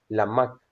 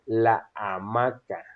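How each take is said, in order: First: The two words run together into one. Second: The two words are kept clearly apart. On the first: The speaker calls it wrong. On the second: The speaker calls it right.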